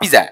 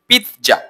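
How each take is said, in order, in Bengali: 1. মাঝের ব্যঞ্জনটি একটি সাধারণ 'z' ধ্বনি। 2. মাঝের ব্যঞ্জনটি একটি 'ts' ধ্বনি। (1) "নট পিজা" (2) "এটা কারেক্ট হচ্ছে পিৎজা"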